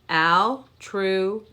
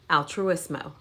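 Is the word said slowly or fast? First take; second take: slowly; fast. First: The word is said slowly. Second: The word is said fast.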